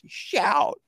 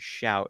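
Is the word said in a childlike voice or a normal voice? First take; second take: childlike voice; normal voice. First: It is said in a put-on little child's voice. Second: It is said in the speaker's normal adult voice.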